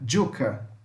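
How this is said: The word begins with a j sound. This is how it is said in Latin America.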